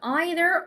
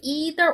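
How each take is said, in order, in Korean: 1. 영국식 발음으로 해요. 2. 미국식 발음으로 해요. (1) "영국에서는 either이라고 표현을 하거든요" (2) "미국에서는 백 퍼센트 either이라고 얘기하지만"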